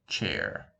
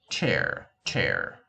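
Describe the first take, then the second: First: "chair" as a Russian learner of English would say it; Russian accent. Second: Said in the usual way. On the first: Shown as a demonstration. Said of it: "pronounce it with the Russian accent". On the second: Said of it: "let's say, uh, the word".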